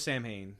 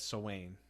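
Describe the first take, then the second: First: The word is pronounced the way it is spelled. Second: The word is pronounced differently from its spelling. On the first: The speaker calls it wrong. "I always thought it was Samhain because that's how it's spelled" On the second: The speaker calls it right. "but it's Sawain ... That's how it's pronounced"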